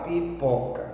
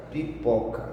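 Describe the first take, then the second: First: Pipoca slowed down, pi held apart from poca; said slowly. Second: Said in the usual way. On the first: Shown as a demonstration. (pipoca devagar, destacando o PO) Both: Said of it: "Então você fala devagar".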